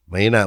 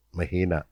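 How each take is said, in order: First: Said in the usual way. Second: Softly, almost under the breath. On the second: Shown as a demonstration. Preacher showing how lightly he smacked his child, softly. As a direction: show how gentle the smack was.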